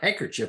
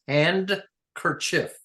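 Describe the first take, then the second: First: The word is said with no d sound. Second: The word is said with a d sound. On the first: The speaker calls it wrong. "It's not handkerchief" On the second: The speaker calls it right. "If you look at the spelling, it's handkerchief"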